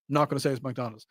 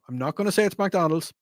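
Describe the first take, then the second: First: Repeated softer as a wink; sly quiet aside. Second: Said in the usual way. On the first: Shown as a demonstration. Host naming the chain while pretending not to, softly. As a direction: drop the voice, mock discreet.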